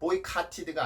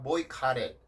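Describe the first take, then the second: First: The middle t is a clear t. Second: The middle t is a soft flap. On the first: The speaker calls it wrong. "boycotted가 아니라" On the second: The speaker calls it right. "플랩 현상"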